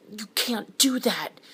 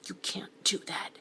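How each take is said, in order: First: High and loud, slow: "You can't do that"; almost yelling it at her, held back; a pushed, strained near-shout. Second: Whispered "You can't do that"; hushed so his son won't hear; an urgent breathy whisper; lowered voice. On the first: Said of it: "he almost yelled". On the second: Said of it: "so he lowered his voice". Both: Acted.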